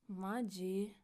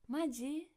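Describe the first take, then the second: First: It sounds annoyed and fed up. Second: It sounds excited and surprised. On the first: The speaker is exasperated by what happened. "some angry, annoyed expressions" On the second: The speaker is thrilled and amazed. "in an excited way"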